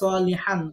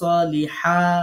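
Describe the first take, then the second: First: The word ends with a short 'an' sound. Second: The word ends with a long 'aa' sound. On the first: This is the normal reading with tanween. "সলিহান জবর এই আলিফ বাদ দিয়েই পড়ব" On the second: This is the reading when pausing at the word. "যদি ওয়াকফ করি তখন আবার সলিহা"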